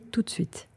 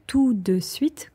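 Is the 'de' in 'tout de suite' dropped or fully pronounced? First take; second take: dropped; pronounced. First: It is said fast with 'de' reduced. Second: Every syllable, including 'de', is pronounced.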